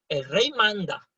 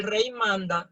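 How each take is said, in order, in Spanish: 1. La frase se lee con un énfasis vocal fuerte. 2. La frase se lee de forma plana, sin énfasis adicional. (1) "no, no" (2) "Yo no voy a decir"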